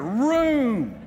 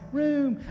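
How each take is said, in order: First: The word is said loudly, with strong force. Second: The word is said softly, without force. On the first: The speaker calls it right. "you've got to say it with authority" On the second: The speaker calls it wrong. "Don't say room"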